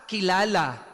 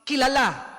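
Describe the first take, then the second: First: The word is said slowly with a gentle ending. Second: The word is said quickly with an abrupt ending. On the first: It means known through a personal relationship. "kilala, marahan, malumanay" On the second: It means popular or famous. "Marag, mabili, kilala, popular"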